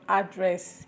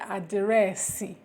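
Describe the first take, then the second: First: It is said with an English accent. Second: It is said with an Igbo accent.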